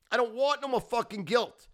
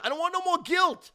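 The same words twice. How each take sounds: First: Loud but coming down from the peak; still ranting. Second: Much higher and louder, shouting it out; yelled rant. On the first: Repeat of rant, calming slightly. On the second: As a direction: blow up on the word guilt. Peak of rant, repeated line. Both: Real, not acted.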